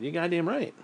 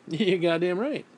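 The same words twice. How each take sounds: First: Said in the usual way. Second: Said slowly through a laugh. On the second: Real, not acted. Laughs, repeats it.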